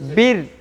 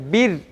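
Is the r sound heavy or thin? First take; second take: thin; thin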